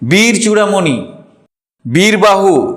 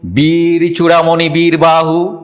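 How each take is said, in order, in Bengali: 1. চূড়ামণির পরে থামা আছে। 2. চূড়ামণির পরে কোনো থামা নেই। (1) "বীর চূড়ামণির পরে থামলাম কেন? ওখানে তো থামার দরকার ছিল না।" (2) "অর্থের প্রয়োজনে যেখানে যেখানে থামা, আমি সেইভাবে পড়ার চেষ্টা করছি।"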